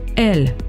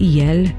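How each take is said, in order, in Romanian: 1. Cuvântul începe cu un 'e' simplu. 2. Cuvântul începe cu un sunet 'ye'. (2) "trebuie pronunțate"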